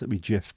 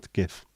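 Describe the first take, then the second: First: It begins with a soft G, like giraffe. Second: It begins with a hard G, like graphic. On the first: The speaker calls it wrong. "If it was giraffe interface format" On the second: The speaker calls it right. "but it's not"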